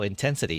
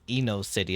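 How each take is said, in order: First: It is read as the word intensity. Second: It is read as Eno plus city. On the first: The speaker calls it right. "That's how you say it?" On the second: The speaker calls it wrong. "I was reading it as Eno City"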